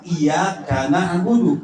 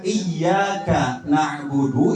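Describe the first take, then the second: First: Iyyaka na'budu split as iya, kana'budu; slow, break after iya, ka joins na; similar wrong reading. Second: Iyyaka with doubled y, then na'budu; correct reading. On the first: Teacher shows the near miss, wrong word break. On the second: Teacher shows the right reading, correct word break. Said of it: "itu yang benar". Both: Shown as a demonstration.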